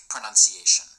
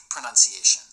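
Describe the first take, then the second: Both takes have the same delivery.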